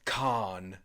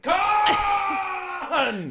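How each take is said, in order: First: The word is said at a normal, calm level. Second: The word is screamed loudly and dramatically. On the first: The speaker calls it wrong. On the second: The speaker calls it right.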